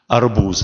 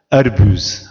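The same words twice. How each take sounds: First: The word has its standard Russian pronunciation. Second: The word is pronounced slightly altered, accented.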